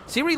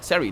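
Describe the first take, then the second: First: The first vowel sounds like 'ee'. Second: The first vowel sounds like 'ah'. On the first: The speaker calls it wrong. "not Siri" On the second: The speaker calls it right. "Sari, not Siri"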